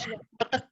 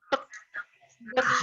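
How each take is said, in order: First: The two syllables come quickly with no pause. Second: The two syllables are separated by a pause.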